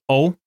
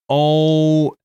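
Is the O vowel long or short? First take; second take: short; long. First: The vowel is short. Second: The vowel is long. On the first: "not short like O" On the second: "sounds long like O"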